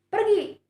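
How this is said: It is said loudly at a high, angry pitch. The speaker is angry and orders someone away. "kata pergi yang saya ucapkan bernada tinggi, menunjukkan bahwa saya ... sedang marah"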